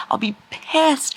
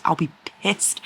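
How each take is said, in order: First: High, slow mock outrage; dramatic upset. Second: Said in the usual way. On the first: Real, not acted.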